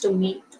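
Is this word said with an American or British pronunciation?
American. It is said with an American pronunciation. "American English, it's tomato"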